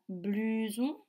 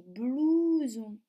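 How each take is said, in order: First: "blouson" mispronounced with a French U, "blu-zon"; the wrong "blouson", U in place of OU; wrong vowel demo. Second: "blouson" with a long, emphasized OU; careful model "blouson", OU rather than U; correct vowel demo. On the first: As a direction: say "blouson" as "bluson", U as in "tu". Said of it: "Je ne dis pas". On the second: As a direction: say "blouson" slowly as "blouu-zon". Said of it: "je dis blouson". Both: Shown as a demonstration.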